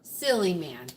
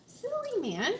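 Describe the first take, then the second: First: "Silly man" falling in pitch to the end; falling tune. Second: "Silly man" pitched high, dipping then rising sharply; questioning tune. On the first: Chatting to her man, "Silly man" with a falling tune. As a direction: let "Silly man" drop as a statement. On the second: Chatting to her man, "Silly man" as a high rising question. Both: Shown as a demonstration. Same words said in two tunes.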